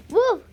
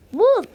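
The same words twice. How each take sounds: First: A high shout of wolf; shouted warning. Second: Higher, louder shout of wolf; a more desperate louder call. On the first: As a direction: call out wolf in alarm. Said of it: "he shouted". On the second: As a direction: yell wolf even harder. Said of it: "he shouted louder". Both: Acted.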